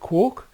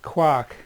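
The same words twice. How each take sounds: First: The vowel rhymes with the word talk. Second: The vowel rhymes with the word Mark. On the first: "to rhyme with talk" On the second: "the original poem that it came from was talking about a person called Mark"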